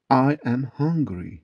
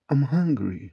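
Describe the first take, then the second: First: "I am hungry" slowly, word by word; slow teaching model. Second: Said in the usual way. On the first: Shown as a demonstration. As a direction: spell out "I am hungry" slowly for learners. Teacher gives slow full form first. ("I am hungry" yavaş, tane tane)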